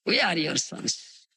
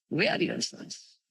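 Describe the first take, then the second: First: Said in the usual way. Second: Softly whispered, almost breathed; whispered repeat. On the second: Shown as a demonstration. Preacher repeating Mahaprabhu's words to the audience in a whisper. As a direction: let it fall to a hush.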